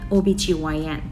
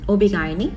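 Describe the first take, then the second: First: GYN is spelled out as letters G-Y-N. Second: GYN is said as one word, guy-nee. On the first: This is how it is said in America. "미국에서는 오비지와이엔 뭐 이렇게 발음을 합니다" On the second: This is how it is said in the Philippines. "필리핀 애들은 오비가이니 이렇게 말을 하고요"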